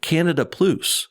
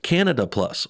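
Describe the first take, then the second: First: It is said in a joke Canadian accent. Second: It is said in the speaker's plain accent.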